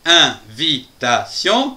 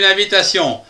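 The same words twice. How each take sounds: First: "Invitation" in four slow, separated beats; "Invitation" broken into distinct syllables. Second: Said in the usual way. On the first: Shown as a demonstration. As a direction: say "Invitation" slowly, a gap after each syllable. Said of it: "quatre syllabes".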